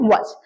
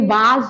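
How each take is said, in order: First: The vowel is a short, reduced 'uh' sound. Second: The vowel is a long open 'ah' sound. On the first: The speaker calls it right. "वस क्या है" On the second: The speaker calls it wrong. "ये वाज नहीं है"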